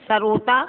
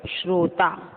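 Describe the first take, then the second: First: "सरोता" as sa-ro-ta; three-syllable rising "सरोता"; split sr cluster. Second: Said in the usual way. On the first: Shown as a demonstration. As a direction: add a vowel after plain s in "सरोता", rising. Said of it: "सरोता गलत है". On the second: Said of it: "शुद्ध".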